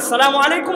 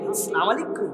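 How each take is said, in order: First: The greeting is said in a plain, ordinary way. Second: The greeting is said in an affected, stylized way. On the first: The speaker calls it right. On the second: The speaker calls it wrong.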